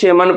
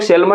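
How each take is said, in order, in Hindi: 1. L की आवाज़ पूरी तरह छोड़ दी जाती है। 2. इस शब्द में L की आवाज़ बोली जाती है। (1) "इसे हम लोग शेमन पढ़ते हैं" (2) "इसको हम लोग सेलमन नहीं पढ़ते"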